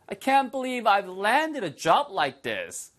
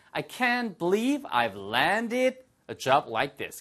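First: Very slow, higher, marveling; amazed model line. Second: Each word drawn out; very slow model line. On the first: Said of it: "repeated model". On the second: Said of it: "model sentence". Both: Shown as a demonstration.

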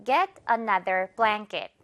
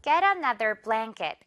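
First: Once more slowly; slow drill. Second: Slow, blanket as blæŋket; slow drill. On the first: Teacher repeats model, slow. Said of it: "One more time". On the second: Teacher models for repeat, slow. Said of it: "바로 갈까요". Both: Shown as a demonstration. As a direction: Get another blanket said very slowly.

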